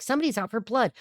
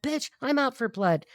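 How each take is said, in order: First: Said in the usual way. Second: Slow, drawn-out mock threat, pitched up; put-on talk. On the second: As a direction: stretch it out in a put-on, higher voice. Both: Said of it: "I don't know why I'm talking like this".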